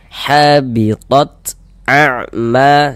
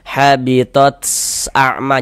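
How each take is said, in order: First: The t is released with a light breath. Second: The t is released with an overdone breath. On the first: The speaker calls it right. "seperti itu ya" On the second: The speaker calls it wrong. "Jangan dibaca habitat a'ma, jangan begitu, jangan. Jangan berlebihan begitu"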